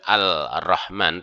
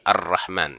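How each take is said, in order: First: The l sound is pronounced before the r. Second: The l merges into a doubled r sound. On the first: The speaker calls it wrong. "bukan Al-Rahman" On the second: The speaker calls it right. "tetapi Ar-Rahman"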